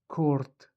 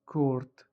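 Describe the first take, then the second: First: It is said with an r before t. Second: It is said with an r before t.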